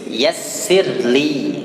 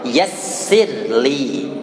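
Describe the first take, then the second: Both takes have the same delivery.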